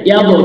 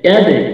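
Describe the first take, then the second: First: The final bounce sounds like a short o. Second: The final bounce sounds like a short e. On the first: The speaker calls it wrong. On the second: The speaker calls it right.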